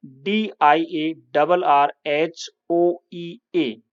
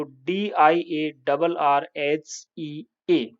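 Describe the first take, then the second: First: Letter by letter, deliberate; British spelling, spelled slowly. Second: Letter by letter, deliberate; American spelling, spelled slowly. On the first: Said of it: "diarrhoea". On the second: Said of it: "यहाँ ओई के स्थान पर केवल ई लिख दोगे". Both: Shown as a demonstration.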